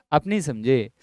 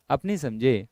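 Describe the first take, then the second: No difference in how they are said.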